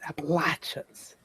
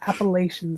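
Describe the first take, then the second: First: It is said the southern way. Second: It is said the northern way. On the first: The speaker calls it right. "it's Appalachians" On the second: The speaker calls it wrong. "it's not Appalachians, ... that's how we say it up here"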